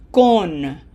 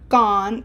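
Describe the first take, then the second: First: Con with a closed, rounded Spanish O; the correct, closed-O con. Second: Con with an open English O, like "con artist"; the wrong, open-O con; English-style con. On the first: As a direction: say con with a pure Spanish oh, like "cone" without the glide. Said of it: "No open O here". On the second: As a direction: say con with an open, American ah vowel. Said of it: "It is not con". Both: Shown as a demonstration.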